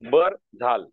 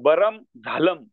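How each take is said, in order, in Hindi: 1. शब्दों के अंत में कोई अनुनासिक ध्वनि नहीं होती। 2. हर शब्द पूरी म ध्वनि पर खत्म होता है। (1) "आता हा हे वाक्य मुलं कशी वाचू शकतात पहा" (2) "असं पण वाचू शकतात"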